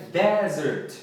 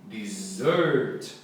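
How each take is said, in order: First: Desert with the stress on DE, dez-ert; teacher hits the first syllable of desert. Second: Dessert with the stress on SERT, di-zert; teacher hits the last syllable of dessert; stress on second syllable. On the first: Teacher contrasting desert and dessert for students, stress first. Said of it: "Aqui, sílaba tônica primeira". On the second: Teacher contrasting desert and dessert for students, stress last. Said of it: "E aqui". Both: Shown as a demonstration.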